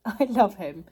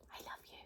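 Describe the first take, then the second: First: Said in the usual way. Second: Tender whisper to a pet. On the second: Real, not acted. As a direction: whisper it lovingly, barely audible. Whispering love to dog.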